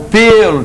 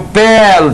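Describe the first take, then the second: First: The stressed vowel is a closed e. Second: The stressed vowel is an open e. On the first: It is the noun meaning hair. "timbre fechado" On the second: It is the verb meaning to peel. "timbre aberto"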